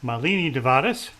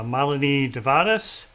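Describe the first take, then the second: First: Malini stressed on the second syllable, muh-LEE-nee; Malini with a long, stressed LEE in the middle; mispronounced name. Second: Malini stressed on the first syllable, MAH-luh-nee; Malini with an open MAH and a light middle. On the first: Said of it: "I would say it incorrectly". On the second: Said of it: "Emphasis on the first syllable". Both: Real, not acted.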